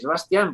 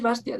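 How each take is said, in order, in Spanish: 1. La tónica está en la última sílaba. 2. La tónica está en la primera sílaba. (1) "con tilde en la final" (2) "no es Bastian"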